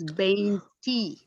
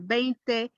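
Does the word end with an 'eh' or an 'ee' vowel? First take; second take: ee; eh. First: The word ends with an 'ee' vowel. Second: The word ends with an 'eh' vowel. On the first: The number joins with another number. "is veinti" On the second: The number stands alone. "is no longer veinte"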